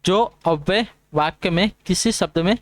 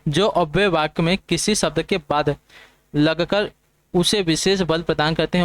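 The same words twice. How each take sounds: First: Said in the usual way. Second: Slow and deliberate, word by word; slow dictation. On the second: Shown as a demonstration. Teacher slowly dictating the definition to exam students. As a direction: read it out slowly so students can note it down. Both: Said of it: "repeats definition slowly".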